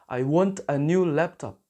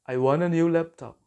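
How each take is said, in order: First: "Want a" is said as two full words. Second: "Want a" is run together as "wanna."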